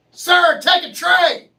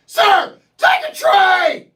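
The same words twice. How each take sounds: First: High, loud barked order; mock yell. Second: Even higher and louder, slow barked order; bigger mock yell. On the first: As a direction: yell it like a pushy cashier. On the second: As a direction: blast it at the customer. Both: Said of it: "they yell at you".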